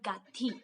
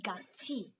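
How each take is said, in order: First: The last syllable sounds like 'thi'. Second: The last syllable sounds like 'chi'. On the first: The speaker calls it wrong. "not gathi" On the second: The speaker calls it right. "it becomes gachi"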